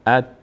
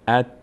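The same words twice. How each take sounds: No difference in how they are said.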